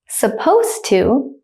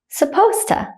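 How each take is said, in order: First: It is said slowly and carefully. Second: It is said quickly at natural speed. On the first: "I will say it slowly first" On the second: "then at a native speaker speed second"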